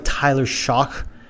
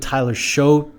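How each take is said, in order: First: The surname ends with a k sound. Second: The surname ends with a vowel sound. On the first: "it sounds like Tyler Shock" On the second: "I've always pronounced his name Tyler Show, which I think is wrong"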